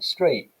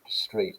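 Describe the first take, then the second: First: The final t is replaced by a glottal stop. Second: The final t is clearly pronounced. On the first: "an estuary English speaker saying street" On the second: "instead of street"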